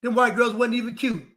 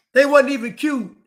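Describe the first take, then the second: First: Said in the usual way. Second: Loud. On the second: Real, not acted. Loud repeat.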